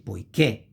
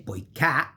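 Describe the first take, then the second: First: Poiché ending in a tight, closed "kay" vowel; closed final e. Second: Poiché with é opened wide toward "ka"; very open final e. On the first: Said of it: "pronunciation of the vowel is closed". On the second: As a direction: open the end of poiché almost to poi-KAE. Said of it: "which is very open". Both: Shown as a demonstration.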